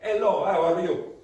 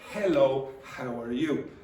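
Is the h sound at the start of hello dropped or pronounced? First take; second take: dropped; pronounced. First: The h sounds are dropped from the words. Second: The h sounds are clearly pronounced in the words. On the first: The speaker calls it wrong. "the H very often disappears, so Italians will say" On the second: The speaker calls it right. "Instead of"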